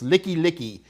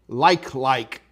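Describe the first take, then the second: First: Each half has two syllables, like 'licky'. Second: It is said like the English word 'like' twice. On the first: It is said the local Hawaiian way. The speaker calls it right. "It's Licky Licky" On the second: It is read as if spelled in English. The speaker calls it wrong. "Now that's a joke. It's not how you pronounce it"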